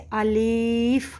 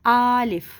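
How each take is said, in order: First: The second vowel is drawn out long. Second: The first vowel is drawn out long. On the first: "लाम के ज़ेर को इतना खींच देते हैं कि उसमें वो या ज़ाहिर हो जाता है" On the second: "इसको इतना लंबा खींच देते हैं कि ये आलिफ बन जाता है"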